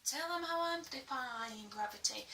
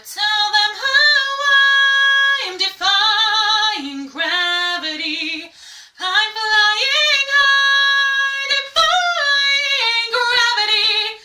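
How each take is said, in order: First: Quietly spoken. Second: Sung, loud high open belting; sung, big open belt. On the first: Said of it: "especially when you're doing". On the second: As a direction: shout it out singing. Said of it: "shout it out as best as you can". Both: Shown as a demonstration.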